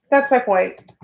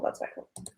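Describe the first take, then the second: First: Said in the usual way. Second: Muttering to herself, a near-silent whisper. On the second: Real, not acted. Repeating her point to herself in a whisper. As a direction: whisper it under your breath.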